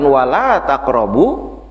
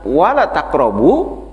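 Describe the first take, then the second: First: The vowel in 'la' is held long. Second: The vowel in 'la' is held short. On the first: It forbids approaching. The speaker calls it right. "bukan wala taqrabu" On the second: It becomes an emphatic urging to approach. The speaker calls it wrong. "Kalau kita baca wala taqrabu"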